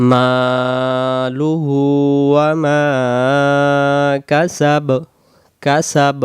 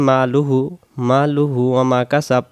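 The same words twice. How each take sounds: First: "মালুহু ওয়া মা" very slow, long vowels held; measured chant drawing out each long vowel of "মালুহু"; elongated recitation. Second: "মালুহু ওয়া মা" with short vowels, no stretch; "মালুহু ওয়া মা" run through without elongation; hurried recitation. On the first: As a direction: stretch মা and হু in "মালুহু", then a short "কাসাব". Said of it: "হু এক আলিফ". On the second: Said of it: "এটাও যদি তাড়াতাড়ি পড়ি". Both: Shown as a demonstration.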